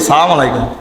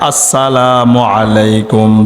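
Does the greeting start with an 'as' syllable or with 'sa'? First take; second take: sa; as. First: The greeting drops the opening 'as' syllable. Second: The greeting begins with a full 'as' syllable. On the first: May unrest fall upon you. The speaker calls it wrong. "কিন্তু আমরা অনেকে সালাম দিই সালাম আলাইকুম" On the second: May peace be upon you. The speaker calls it right. "আমাদের সালাম হবে আসসালামু আলাইকুম"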